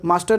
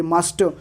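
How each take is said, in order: First: मास्टर with the R pronounced at the end; rejected मास्टर, ending in an audible R; sounded final R. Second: मास्टर ending on an open vowel, no R; corrected मास्टर, final R dropped; silent final R. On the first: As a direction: say मास्टर, voicing the last R. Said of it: "मास्टर नहीं". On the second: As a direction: say मास्टर British-style as "maas-tuh". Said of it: "ये मास्टर". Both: Shown as a demonstration.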